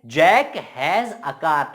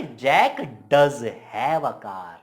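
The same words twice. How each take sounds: First: Said in the usual way. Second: "does" stretched and punched; very slow "Jack does have a car", weight on "does"; swaggering emphasis. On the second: Shown as a demonstration. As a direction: insist word by word on "does have". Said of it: "चौड़ में बोला".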